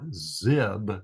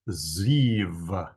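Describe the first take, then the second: First: The syllable ends in a b sound. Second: The syllable ends in a v sound. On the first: The speaker calls it wrong. "this is not zib" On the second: The speaker calls it right. "it is ziv"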